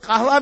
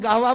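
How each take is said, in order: First: The word begins with a deep q sound. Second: The word begins with a g sound. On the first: "काफ कहते हैं" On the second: "काफ कहते हैं तो गाफ कहते हैं"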